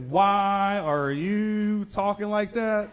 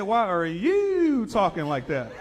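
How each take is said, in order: First: Very slow, high agent; slow slurred voice. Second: Slow, high, loud copy; mock slow echo. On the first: Retold or imitated. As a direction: stretch each word. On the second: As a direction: echo her drawl back.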